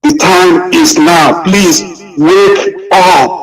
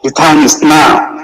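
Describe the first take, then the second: First: Slow, tearful, high pleading voice; crying plea. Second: Said in the usual way. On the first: Real, not acted. Speaker in tears urging Biafrans that the time is now. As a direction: cry out the plea, barely holding on. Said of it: "I'm getting emotional".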